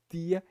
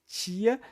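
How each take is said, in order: First: The t is a plain t sound. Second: The t sounds like English ch. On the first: "aquele som de T e D mais tradicional, mais próximo do que se pronuncia em Portugal" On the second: "esse som aqui é o som que vem junto com o T. Então fica tia"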